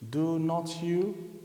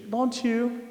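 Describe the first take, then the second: First: The tag is said in full, uncontracted. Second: The tag is said in contracted form. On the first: The speaker calls it wrong. "it's like of lagging... It's not fluent" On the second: The speaker calls it right. "So more fluent is saying"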